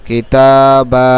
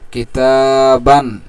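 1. শব্দটি শেষ হয় টানা 'a' ধ্বনি দিয়ে। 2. শব্দটি শেষ হয় 'an' ধ্বনি দিয়ে। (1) "কিন্তু আমরা যেহেতু এখানে থামবো তাহলে কিভাবে পড়ব?" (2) "তাহলে এটা হলো স্বাভাবিক উচ্চারণ"

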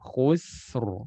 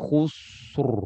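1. Bunyi s-nya tipis dan ringan. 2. Bunyi s-nya tebal dan berat. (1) "Sin tipis, ro tebal" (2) "jangan bilang khusr. Itu tebal sinnya"

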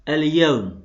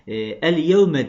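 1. Kelime son ünlü olmadan biter. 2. Kelime son kısa bir ünlüyle biter. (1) "Ama bunu konuşurken okumayabiliriz" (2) "el yevme diye okunur"

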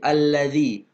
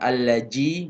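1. Konsonan tengahnya adalah bunyi 'th' yang lembut. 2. Konsonan tengahnya bukan bunyi 'th'. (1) "tapi allazi. Huruf za, ujung lidahnya kena gigi" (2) "bukan allaji"

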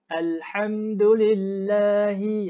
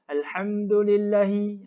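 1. Vokal setelah l kedua dipanjangkan. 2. Vokal setelah l kedua itu pendek. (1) "kena panjangkan sikit bacaan la tu" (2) "Jangan jangan jangan tak ada harakat langsung. ... tak boleh"

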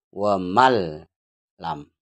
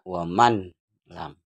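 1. Bunyi n menyatu menjadi bunyi l ganda. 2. Bunyi n diucapkan sebelum l. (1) "langsung masuk ke huruf ini" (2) "Jadi tidak waman lam"

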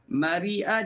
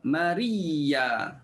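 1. Kata mari'ah ada hamzah di tengah. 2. Kata mari'ah ada y ganda di tengah.

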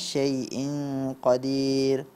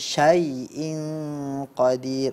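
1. Bunyinya kabur dan terdengar seperti huruf e. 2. Bunyi konsonannya diucapkan dengan jelas dan tegas. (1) "bukan syai'in qadir"

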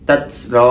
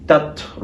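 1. t-এর শেষে জোরালো s-এর মতো শিস শোনা যায়। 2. t-এর শেষে হালকা একটু নিঃশ্বাস বেরোয়। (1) "হামস যদি আমরা বেশি করে ফেলি সেক্ষেত্রে সিন হয়ে যেতে পারে" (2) "আমাদের বাতাসটাকে কিছুক্ষণ আটকে রেখে হালকা একটু ছেড়ে দাও"

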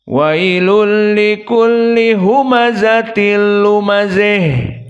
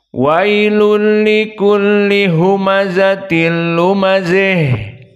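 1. Vokal terakhir condong ke i, seperti e. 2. Vokal terakhir condong ke i, seperti e.

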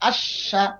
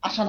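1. মাঝের ব্যঞ্জনবর্ণটি বেশি সময় ধরে উচ্চারণ করা হয়। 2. মাঝের ব্যঞ্জনবর্ণটি ছোট ও দ্রুত। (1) "ধরে রাখবেন একটু আশা" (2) "অনেকে বলে আশা, আশা না"

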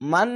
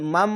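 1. অক্ষরটি ন-ধ্বনি দিয়ে শেষ হয়। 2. অক্ষরটি ম-ধ্বনি দিয়ে শেষ হয়। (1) "মান না বলে" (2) "মাম, এভাবে পড়তে হবে"

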